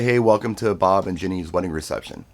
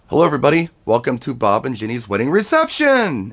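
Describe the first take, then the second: First: The pitch stays level on 'reception'. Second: The pitch goes way up on 'reception'.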